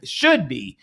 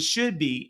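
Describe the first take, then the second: First: "should" punched louder, then falling; stress on SHOULD. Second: Said in the usual way. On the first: Real, not acted. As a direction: lean hard on the word "should". Repeats it, insisting it should.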